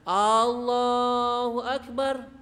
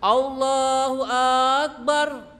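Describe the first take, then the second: First: The opening A of Allahu is drawn out long. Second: The opening A of Akbar is drawn out long. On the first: It sounds like asking whether God is great. "malah dipanjangkan A-nya" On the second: It sounds like asking whether it is great. "Atau akbarnya A-nya panjang"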